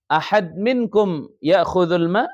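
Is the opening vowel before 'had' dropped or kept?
kept. The first word begins with a glottal vowel. This is the standard Arabic form.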